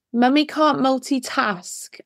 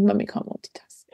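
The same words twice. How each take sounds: First: Said in the usual way. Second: Whisper. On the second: Retold or imitated. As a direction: whisper "Mummy can't multitask" under the breath. Repeats son's phrase, whispered.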